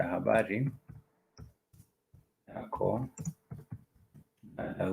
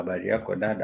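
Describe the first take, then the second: First: "habari ... yako ... dada" with long pauses after each word. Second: Said in the usual way. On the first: Shown as a demonstration. Teacher drilling a Swahili greeting for learners, word by word.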